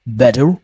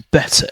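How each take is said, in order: First: "better" the American way, t tapped like d; American accent. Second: "better" the British way, true t and no final r; British accent. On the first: Teacher showing the accent to lose, American accent. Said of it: "you might have a strong American accent". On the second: Teacher showing learners the target word, British accent. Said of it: "You want to learn British accent". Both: Shown as a demonstration.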